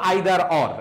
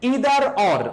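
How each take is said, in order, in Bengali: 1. প্রথম স্বরধ্বনিটি 'eye' এর মতো শোনায়। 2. প্রথম স্বরধ্বনিটি 'ee' এর মতো শোনায়। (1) "দুইটা প্রনাউন্সিয়েশন করতে পারো" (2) "দুইটা প্রনাউন্সিয়েশন করতে পারো"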